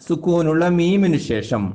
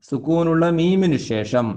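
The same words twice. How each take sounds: No difference in how they are said.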